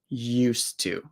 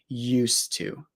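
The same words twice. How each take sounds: First: The D sound blends away into the T. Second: The same.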